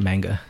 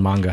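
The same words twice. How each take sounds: First: It is said with an English-style pronunciation. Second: It is said with a Japanese-style pronunciation. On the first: The speaker calls it wrong. "not manga" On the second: The speaker calls it right. "it's actually called manga"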